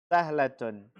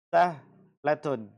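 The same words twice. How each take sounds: First: Said in the usual way. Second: Sahlatun stretched very slowly; drawn out. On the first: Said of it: "same word said plainly later". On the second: Shown as a demonstration. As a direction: let sahlatun hang long and clear. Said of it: "teacher drawing out the word". (sahlatun diucapkan sangat pelan)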